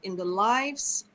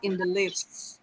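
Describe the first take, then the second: First: Lives has the long vowel, rhyming with dives. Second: Lives has the short vowel, rhyming with gives. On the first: It is the plural of the noun life. The speaker calls it right. "Immerse myself in the lives of the character" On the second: It sounds like the verb to live. The speaker calls it wrong. "not in the lives"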